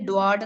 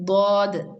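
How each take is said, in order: First: It starts with a plain English d sound. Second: It starts with a heavy emphatic d sound. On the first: The speaker calls it wrong. "ഡി ആണെങ്കിൽ ഡ്വാഡ് എന്നാ പറയാ" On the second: The speaker calls it right. "ഡ്വാഡ് ഡോഡ് അല്ല"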